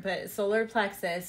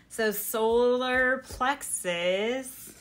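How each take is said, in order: First: Said in the usual way. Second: "solar plexus" stretched very slowly; drawn-out solar plexus. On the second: Shown as a demonstration. Announcing the next chakra, slowly stretching "solar plexus". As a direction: draw out "So solar plexus" slowly, rising at the end. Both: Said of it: "moves on to solar plexus".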